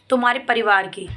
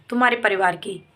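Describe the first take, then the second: No difference in how they are said.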